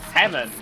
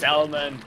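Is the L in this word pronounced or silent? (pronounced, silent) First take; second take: silent; pronounced. First: The L sound is silent in the word. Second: The L sound is pronounced in the word. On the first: The speaker calls it right. "das L ist stumm" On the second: The speaker calls it wrong. "Nicht Salmon"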